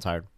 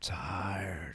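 First: The word tired is said quickly and briefly. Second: The word tired is stretched out for a long time. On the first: The speaker is only a little tired. "If you're just tired, you're like" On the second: The speaker is very tired. "if you're really tired, you're like"

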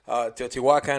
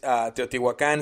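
First: The name is said with English pronunciation. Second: The name is said with Spanish pronunciation. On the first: This is how others say it in videos. The speaker calls it wrong. "in some videos they call it" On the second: This is the real name in Spanish. The speaker calls it right. "the real name in Spanish is"

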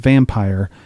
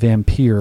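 First: The name is said in a plain, ordinary way. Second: The name is said with a fancy, affected pronunciation.

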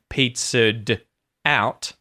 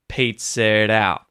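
First: The D before out is fully pronounced. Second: The D before out becomes a quick flap. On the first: The speaker calls it wrong. "So instead of being" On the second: The speaker calls it right. "we turn the D into a D or T flap"

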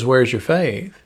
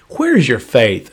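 First: The question sounds gentle and not scolding. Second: The question sounds harsh and scolding. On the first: The listeners are being reminded that their hope was well placed. The speaker calls it right. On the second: The listeners are being scolded for their lack of faith. The speaker calls it wrong.

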